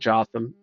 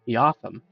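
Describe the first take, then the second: First: The name starts with a J sound. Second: The name starts with a non-J sound.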